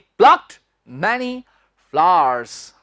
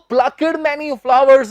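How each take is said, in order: First: Plucked is said with one syllable. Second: Plucked is said with two syllables. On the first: The speaker calls it right. "He प्लक्ड many flowers" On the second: The speaker calls it wrong. "प्लकड many flowers नहीं"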